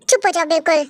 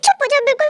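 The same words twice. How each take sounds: First: Low, firm order to hush; stern shushing. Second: Hurried, anxious order to hush; urgent shushing. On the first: Girl cutting off her boyfriend, stern shushing. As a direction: cut off the protest in a lowered voice. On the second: Girl silencing boyfriend as Dad comes, urgent shushing. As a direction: hush them before getting caught. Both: Acted.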